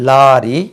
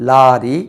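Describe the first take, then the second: The two takes are said the same way.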